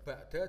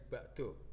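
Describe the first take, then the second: First: The word ends in an 'a' vowel. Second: The word ends in an 'o' vowel.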